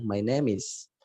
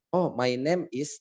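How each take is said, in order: First: MY NAME IS run together as "my nemis"; words linked. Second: MY NAME IS said slowly, word by word; words separated. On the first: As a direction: link "name is" into one word, "nemis". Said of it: "ngomongnya disambung-sambung". ("my name is" disambung jadi "mai nemis") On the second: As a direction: say "my name is" with each word apart. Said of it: "Tidak bilang". ("my name is" diucapkan terpisah kata demi kata) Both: Shown as a demonstration.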